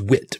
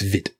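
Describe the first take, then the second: First: The word begins with a w sound. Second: The word begins with a v sound. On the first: "it says wit" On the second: "I'm assuming it's Vit"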